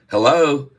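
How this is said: It is said with a smile, sounding bright. "if you put that smile on, ... it sounds like a smile"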